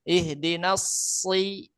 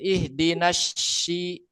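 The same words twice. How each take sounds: First: The second word starts with a thick, sharp s. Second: The second word starts with a sh sound. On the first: "Kalau sod kan sofir, ihdinas si itu tebal, eh apa eh, tajam" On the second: "yang pakai shin"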